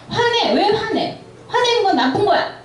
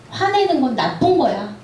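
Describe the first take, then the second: First: Much higher, hammed-up scolding of a child; mock scolding parent. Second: Said in the usual way. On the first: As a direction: snap at the kid like a strict parent, '화내는' pushed up high. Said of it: "어렸을 때부터". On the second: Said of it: "감정에 도덕성을 갖다 붙일 때".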